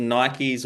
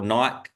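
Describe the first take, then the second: First: Nikes said NY-keez; two-syllable Nikes. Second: Nike said like "nyke"; Nike with no ee on the end; one-syllable Nike. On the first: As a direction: say Nikes with an ee sound before the final z. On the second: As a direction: say Nike to rhyme with bike, silent e. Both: Shown as a demonstration. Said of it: "however you say it in America".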